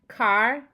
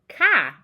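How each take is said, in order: First: The R in car is pronounced. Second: The R in car is dropped.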